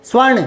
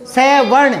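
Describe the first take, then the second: First: स्वर्ण said as one syllable cluster, स gliding into व; joined svarn, right. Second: स वर्ण with स as a separate full syllable before वर्ण; split s plus varn, wrong. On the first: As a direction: blend it smoothly as स्वर्ण. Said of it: "और अब क्या बोलेंगे". (स्वर्ण एक साथ जोड़कर) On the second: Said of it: "अब पूरा जोर देंगे इस पर". (स को अलग पूरा बोलकर स वर्ण) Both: Shown as a demonstration.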